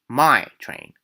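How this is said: Its intonation is changed to mark possession.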